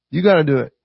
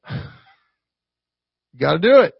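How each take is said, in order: First: Said in the usual way. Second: "you gotta do it" drawn out slowly, "do" leaned on; slow insistent stress. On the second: Shown as a demonstration. To the dads, slow emphatic "you gotta do it". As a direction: stretch every word of "you gotta do it" to drive it home.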